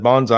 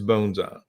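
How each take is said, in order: First: The word sounds like 'banzai'. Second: The first vowel sounds like 'bone'. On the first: The speaker calls it wrong. "if you messed up in the class and said bonsai" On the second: The speaker calls it right. "the proper pronunciation of this word is bonsai"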